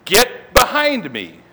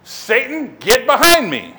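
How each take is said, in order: First: Slow, drawn-out confrontational order; stern command. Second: Loud, confrontational command; stern rebuke. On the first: Jesus rebukes Peter before the disciples, stern and slow. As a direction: spell out the rebuke slowly and firmly. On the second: Jesus turns on Peter in front of everybody, stern and loud. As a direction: rebuke him sternly, punching it out. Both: Retold or imitated. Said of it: "He probably says it in a stern voice".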